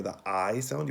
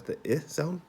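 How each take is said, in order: First: "I" pronounced as long "eye"; long "eye" vowel on "I". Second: "I" pronounced as short "ih"; short "ih" vowel on "I". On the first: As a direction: say "I" as its own letter name. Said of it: "put an E at the end". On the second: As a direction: say "I" like the middle of kit. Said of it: "just put the I in the middle". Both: Shown as a demonstration.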